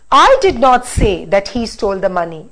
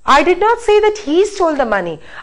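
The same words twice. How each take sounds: First: The stress falls on the word I. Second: The stress falls on the word he. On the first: Somebody else said it. "I'm going to say the sentence now by stressing on I" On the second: Somebody else did the stealing. "I said that somebody else stole, not he"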